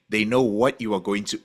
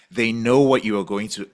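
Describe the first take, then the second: No difference in how they are said.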